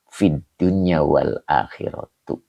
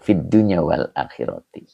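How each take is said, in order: First: The last word ends with a u sound. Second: The last word ends with an i sound. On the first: The speaker calls it wrong. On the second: The speaker calls it right.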